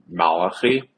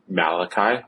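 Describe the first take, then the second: First: The name is said with Hebrew pronunciation. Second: The name is said with English pronunciation. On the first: "my name in Hebrew, as you call me, is pronounced Malachi" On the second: "which is how you pronounce it in English"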